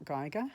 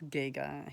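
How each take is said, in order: First: The name begins with a 'guy' sound. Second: The name begins with a 'gee' sound. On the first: The speaker calls it wrong. "it's not Geiger" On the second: The speaker calls it right. "G for Giga, not Guy"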